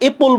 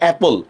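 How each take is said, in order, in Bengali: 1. প্রথম স্বরধ্বনিটি 'e' in bed-এর মতো শোনায়। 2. প্রথম স্বরধ্বনিটি 'a' in cat-এর মতো শোনায়। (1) "এপল বলতেছিলাম না"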